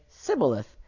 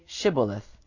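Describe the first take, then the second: First: The word begins with an 's' sound. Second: The word begins with a 'sh' sound. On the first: The speaker calls it wrong. "he could not pronounce it right" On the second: The speaker calls it right. "then say Shibboleth"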